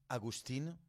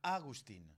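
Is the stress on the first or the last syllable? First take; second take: last; first. First: The stress is on the last syllable. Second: The stress is on the first syllable. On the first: "tu dis Agustin" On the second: "S'il y a un accent sur le A, tu diras Agustin"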